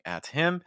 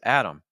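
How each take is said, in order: First: The H of him is clearly pronounced. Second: The H is dropped and the words run together. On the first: "instead of saying at him" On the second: "it becomes Adam"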